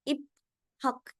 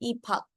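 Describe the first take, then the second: First: The p and h are said separately. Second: The p and h merge into aspirated p. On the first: The speaker calls it wrong. "That is wrong" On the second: The speaker calls it right. "प्लेन consonant... aspirated consonant में चेंज हो जाते हैं"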